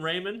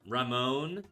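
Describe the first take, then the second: First: The name is anglicized, starting with 'ray'. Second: The name is not anglicized, starting with 'rah'. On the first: The speaker calls it wrong. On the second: The speaker calls it right. "I assume it's Ramon and not Raymond"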